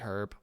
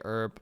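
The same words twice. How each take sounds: First: The word is said the European way. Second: The word is said the North American way. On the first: "Europeans say herb" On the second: "North Americans say herb"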